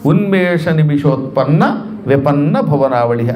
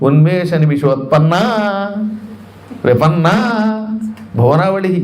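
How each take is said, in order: First: It flows as one compound with short vowels. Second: Vowels between the parts are drawn out long. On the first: The speaker calls it right. "అదంతా ఒకటే సమాసం" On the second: The speaker calls it wrong. "ఏమిటో ఈ దీర్ఘం అంటే తెలియకపోవటం వల్ల"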